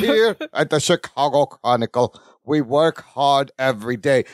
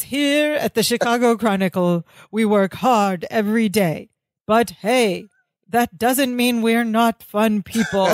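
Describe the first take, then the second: First: Labored, over-modulated announcer-like acting; deep, forced delivery. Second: Mildly modulated bad-actor line reading; slightly less forced delivery. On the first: Larry performs for the camera, deep and labored. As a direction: push each word out in a low, forced voice. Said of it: "in this weird, deep, forced, labored line delivery". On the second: Larry retakes his line, only a tiny bit less forced. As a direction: keep a hint of the labored performance. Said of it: "kind of in the same delivery. He didn't really unmodulate that much, a tiny bit".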